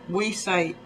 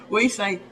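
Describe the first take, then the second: Both takes have the same delivery.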